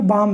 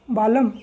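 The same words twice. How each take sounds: First: "बाम" with a silent l, one long baam; correct reading baam. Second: "बालम" with the l sounded, two syllables ba-lam; wrong reading balam. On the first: Teacher gives the right reading of balm, silent l. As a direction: say "बाम" as a single syllable, no l. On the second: Teacher shows the wrong reading of balm, l sounded. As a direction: read "बालम" sounding every letter, ba-lam. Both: Shown as a demonstration. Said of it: "बालम नहीं है".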